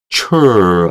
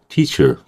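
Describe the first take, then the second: First: The second vowel is said full and clear. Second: The second vowel is barely heard, reduced. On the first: The speaker calls it wrong. "teacher 안 하고요" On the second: The speaker calls it right. "거의 죽어가는 발음이에요"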